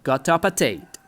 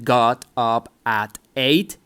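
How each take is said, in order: First: The final sounds run into the next words. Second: Each word is said separately without linking. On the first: The speaker calls it right. "you put the last sound with the next sound of the next word" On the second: The speaker calls it wrong. "instead of saying got up at eight"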